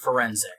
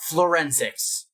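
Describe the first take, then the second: First: It is said with no L after the F. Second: It is said with an L after the F. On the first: The speaker calls it right. "pronounce the word forensic" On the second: The speaker calls it wrong. "There is no L. It is not Florensics"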